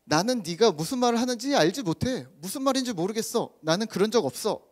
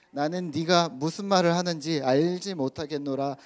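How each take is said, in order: First: Higher-pitched, protesting denial; acted denial. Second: Said in the usual way. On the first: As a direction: insist you know nothing about it. Acts out Peter's denial in everyday words.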